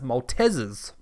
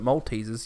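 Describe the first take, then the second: First: The middle syllable sounds like 'tez'. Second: The middle syllable sounds like 'tease'. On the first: This follows the spelling of the word. The speaker calls it right. "which means it's actually pronounced Maltesers" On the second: This is how people usually say it. The speaker calls it wrong. "we pronounce it Maltesers"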